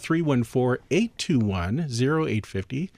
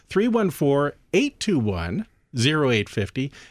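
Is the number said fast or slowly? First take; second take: fast; slowly. First: The number is said at a quick pace. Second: The number is said at a slow pace.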